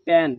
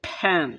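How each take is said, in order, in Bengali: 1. p বলার সময় বাতাসের কোনো ঝলক ছাড়া বলা হয়। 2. p বলা হয় জোরালো বাতাসের ঝলক দিয়ে। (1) "যেমন আমরা বলি প্যান" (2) "এটা হবে ফ্যান ... একটা বাতাস বের হবে"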